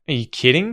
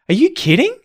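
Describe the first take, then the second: First: It sounds sarcastic and disbelieving. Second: It sounds shocked, surprised and happy. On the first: The speaker does not believe the other person. "a kind of sarcastic, I don't believe you kind of tone" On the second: The speaker is delighted by the news. "kind of shocked and surprised but happy"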